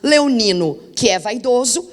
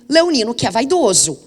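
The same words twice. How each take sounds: First: There is a pause after 'leonino'. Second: There is no pause after 'leonino'. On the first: Every Leo is vain. "no primeiro caso" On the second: He belongs to the subset of vain Leos. "e no segundo"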